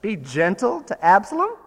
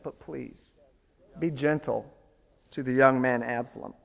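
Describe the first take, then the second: First: Louder, higher disbelieving echo; incredulous. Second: Soft, hushed request to spare his son; a father's tender plea to his general; gentle plea. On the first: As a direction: throw the words back in disbelief. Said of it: "what Joab must have thought". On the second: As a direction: plead quietly for the boy's life. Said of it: "in a remarkable command to Joab". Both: Retold or imitated.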